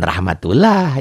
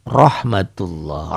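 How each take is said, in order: First: Rahmatullah with thin A vowels, ending "lah"; mistaken reading. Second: Rahmatullah as "rohmatulloh", very slow; thick tafkhim. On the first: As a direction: say rahmatullah as spelled, with an open A. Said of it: "jangan rahmatullah ya". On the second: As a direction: draw out rahmatullah with rounded O sounds. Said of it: "berbunyi O ya". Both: Shown as a demonstration.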